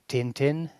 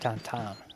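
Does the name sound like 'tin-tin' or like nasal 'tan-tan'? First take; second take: tin-tin; tan-tan. First: The vowels sound like the English word 'tin'. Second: The vowels sound like a nasal 'tan'. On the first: The speaker calls it wrong. "I pronounced it Tintin, uh, they got really offended" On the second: The speaker calls it right. "you're actually supposed to pronounce it Tantan"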